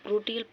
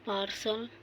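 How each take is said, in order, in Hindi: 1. बीच का व्यंजन 't' ध्वनि है। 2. बीच का व्यंजन 'sh' ध्वनि है। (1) "ढेर जना प्रोटियल पढ़ल है" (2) "अगर सही उच्चारण हो पार्सल"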